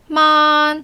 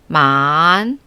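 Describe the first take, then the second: First: The pitch stays high and level throughout. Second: The pitch dips low, then rises again.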